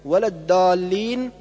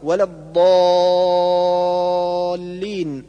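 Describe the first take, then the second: First: الضالين with thin plain d; dad as dal. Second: الضالين with heavy ض and very long aa; correct dad. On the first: Teacher showing the error, light d in الضالين. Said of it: "أو جعل الضاد دالا". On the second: Teacher correcting, heavy ض and madd in الضالين. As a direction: press ض and stretch the aa of الضالين. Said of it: "والصواب". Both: Shown as a demonstration.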